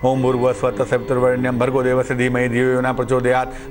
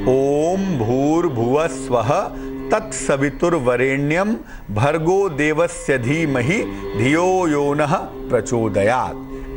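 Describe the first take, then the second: First: The mantra is rushed through quickly. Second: The mantra is recited slowly and deliberately. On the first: The recitation is a mere formality. The speaker calls it wrong. "लोग quorum पूरा करते हैं" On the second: Each word is understood and given weight. The speaker calls it right. "ऐसे आराम से"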